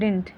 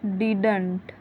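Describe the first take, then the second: First: The middle d sound is dropped. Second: The middle d sound is clearly pronounced. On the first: The speaker calls it right. "ये सही है डिंट" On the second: The speaker calls it wrong. "ये गलत है"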